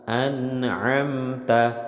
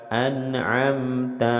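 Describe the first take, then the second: Both takes have the same delivery.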